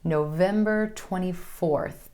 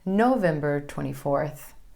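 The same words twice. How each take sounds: First: The stress falls on the day number. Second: The stress falls on the month name. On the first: The speaker calls it right. "emphasis falling on the number" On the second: The speaker calls it wrong. "instead of"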